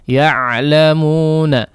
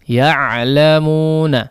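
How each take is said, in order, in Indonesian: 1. Konsonan itu tetap mengalirkan sedikit suara secara terus-menerus. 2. Konsonan itu tetap mengalirkan sedikit suara secara terus-menerus.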